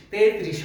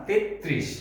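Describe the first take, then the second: First: তেত্রিশ run together as "te-trish"; wrong single-t form. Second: তেত্রিশ as "tet-trish", t held; correct doubled-t form. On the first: Teacher rejecting single-t তেত্রিশ, said te-trish. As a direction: say তেত্রিশ with one light t, te-trish. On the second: Teacher correcting learners' তেত্রিশ to tet-trish with doubled t. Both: Shown as a demonstration. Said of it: "তেত্রিশ হবে না".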